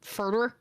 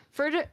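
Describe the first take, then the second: First: Further with a strong r; further, American way. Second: Further with no r; further, British way. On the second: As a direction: further said as "fəðə". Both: Shown as a demonstration. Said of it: "we're forever calling it further".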